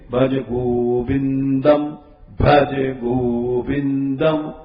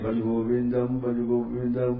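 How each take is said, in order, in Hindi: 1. यह वाक्य धीरे-धीरे बोला गया है। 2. यह वाक्य तेज़ी से बोला गया है। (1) "उसको धीरे" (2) "ऐसे नहीं"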